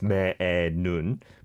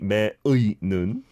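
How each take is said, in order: First: The particle sounds like a plain 'e' vowel. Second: The particle sounds like a gliding 'ui' vowel. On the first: The speaker calls it right. "I always say it air as well" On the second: The speaker calls it wrong. "can you say me ui nun?"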